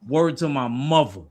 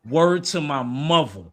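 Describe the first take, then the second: First: It is said in the speaker's ordinary accent. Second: It is said in a New York accent.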